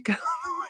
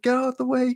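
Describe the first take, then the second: First: Laughing. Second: Much higher frantic plea; panicked henchman. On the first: Retelling the steamroller henchman scene. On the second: Retelling a movie guard facing a steamroller, high frantic plea. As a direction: squeal it like a trapped guard. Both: Retold or imitated.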